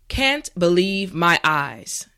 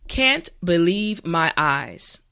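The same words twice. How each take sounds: The two takes are said the same way.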